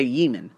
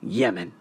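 First: "Yemen" said as YEE-men, long ee in the first syllable; American pronunciation. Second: "Yemen" said as YEH-men, short e, lower and softer; own pronunciation. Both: Shown as a demonstration. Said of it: "Americans say Yemen".

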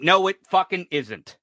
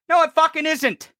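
First: Low, held-down rebuttal; restrained irritation, pitched well down; firm contradiction. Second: Raised, indignant rebuttal; angry, emphatic insistence; insistent contradiction. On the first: First rebuttal, then repeated forcefully. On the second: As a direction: repeat the denial forcefully, pitch up. Repeats rebuttal more forcefully. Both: Real, not acted.

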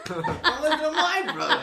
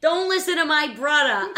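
First: Put-on much higher, laughing Boston accent; squeaky imitation of a Boston radio host. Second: Put-on loud, high, laughing Boston accent; hammed-up Boston radio brother. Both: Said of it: "car talk".

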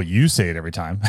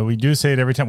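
First: "you" picked out as a quick correction; stress on "you". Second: "do" leaned on in agreement; stress on "do". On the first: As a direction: toss it back quickly, leaning on "you". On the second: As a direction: concede it with emphasis on "do". Agrees, before correcting himself. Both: Real, not acted.

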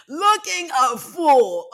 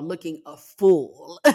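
First: Slow, high, louder teasing repeat; high-pitched self-mockery. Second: Slow, lower, stretched-out jab at oneself; drawn-out self-mockery. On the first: Podcaster repeating the self-roast, high and drawn out. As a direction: stretch it out high and loud, laughing at oneself. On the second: Podcaster mocking own failed tear-holding, drawn out low. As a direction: drag out the words in mild self-mockery. Mocking herself, then repeats it. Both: Real, not acted.

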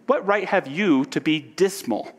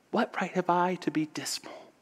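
First: Lifted, challenging question; challenging retort. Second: High, hushed near-whisper; saying to himself. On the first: Nephew retorting to his uncle Scrooge, challenging. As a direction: throw the question back at him, pitch up. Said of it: "returned the nephew". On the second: Orphan boy thinking of others worse off, hushed to himself. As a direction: ask yourself softly, voice thinning to breath. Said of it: "saying to himself". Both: Acted.

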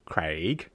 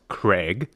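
First: Craig said as kray-g with a long ay vowel; own pronunciation. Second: Craig said as kreg with a short e vowel; Canadian pronunciation. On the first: Host naming her listener, saying Craig as kray-g. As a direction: say Craig the way she says it, kray-g. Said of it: "they call him Craig". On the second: Host showing how Canadians say Craig, kreg. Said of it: "Here in Canada, they call him Craig". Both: Shown as a demonstration.

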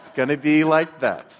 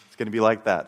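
First: Louder, laughing defiance; defiant challenge. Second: A wry, laughing dare, said at normal volume; half-laugh it like a bitter challenge; sarcastic challenge to God. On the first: Frustrated single man daring a silent God, louder with a laugh. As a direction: throw it back at God with a bitter laugh. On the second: Angry believer mocking God after hearing nothing, with a wry laugh. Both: Retold or imitated. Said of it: "And I was angry".

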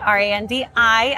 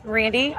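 First: "R A N D I" said letter by letter; spelling it out. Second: Said in the usual way. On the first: Shown as a demonstration. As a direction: spell "R A N D I" one clear letter at a time. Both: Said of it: "Can you spell it out for me?".

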